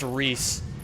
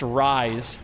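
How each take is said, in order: First: The name rhymes with piece. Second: The name rhymes with ice. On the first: The speaker calls it right. "But instead it's pronounced Reese" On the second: The speaker calls it wrong. "it would be really cool if that name was pronounced Rise"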